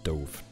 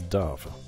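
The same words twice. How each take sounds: First: The word rhymes with drove. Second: The word rhymes with love. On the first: It is the past tense of dive. The speaker calls it wrong. "Like dive dove. Different" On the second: It names the bird. The speaker calls it right. "Wiktionary seems to suggest that this is dove"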